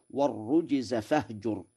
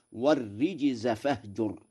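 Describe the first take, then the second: First: "والرجز" recited with damma, war-rujza; u after the ra. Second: "والرجز" recited with kasra, war-rijza; Warsh kasra on ra. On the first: Teacher quotes the verse, saying "والرجز" as war-rujza with damma. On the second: Teacher shows Warsh's reading, saying "والرجز" as war-rijza with kasra. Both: Shown as a demonstration. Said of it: "بخفض الراء".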